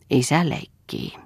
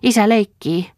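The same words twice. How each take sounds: First: Said in the usual way. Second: Put-on excited child. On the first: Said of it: "sanoi Lea". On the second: A narrator's reading. Child delighted at father's play.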